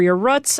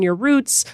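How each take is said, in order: First: "roots" with a short vowel, like "ruts"; local vowel in roots. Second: "roots" with the long oo vowel. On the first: Host correcting to the Minnesota way, short vowel in "roots". Second pronunciation, as it were. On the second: Host naming where people come from, long oo in "roots". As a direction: say "roots" to rhyme with boots. Two pronunciations of roots contrasted. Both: Shown as a demonstration.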